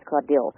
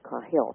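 First: The name is said with a d sound. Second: The name is said without a d sound. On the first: The speaker calls it right. "It's Caudill" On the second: The speaker calls it wrong. "I mispronounced her name. I said Cahill"

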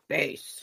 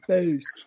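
First: It is said in a deep bass voice. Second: It is said in a normal voice.

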